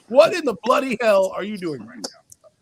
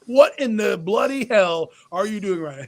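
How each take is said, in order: First: British-accented mock outrage. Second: Said in the usual way. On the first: Owner confronting the coach, in a put-on British accent. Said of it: "He gets in his British accent". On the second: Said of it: "I'm looking at this guy going".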